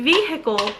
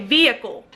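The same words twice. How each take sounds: First: The H sound in the middle is pronounced. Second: The H sound in the middle is dropped.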